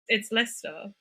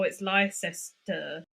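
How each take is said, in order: First: It is said in a short, contracted form. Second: It is read out letter by letter as spelled. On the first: This is how locals actually say it. The speaker calls it right. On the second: This is how someone reading the spelling would say it. The speaker calls it wrong.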